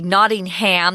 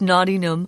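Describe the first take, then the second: First: The last syllable is said fully and clearly. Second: The last syllable is weak and nearly dropped. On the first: The speaker calls it wrong. "a lot of Americans would say Nottingham. That's incorrect" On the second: The speaker calls it right. "they just kind of dropped that last syllable"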